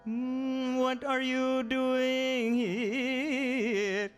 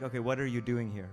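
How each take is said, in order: First: It is said in a melodic, theatrical Narada voice. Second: It is said in a plain speaking voice.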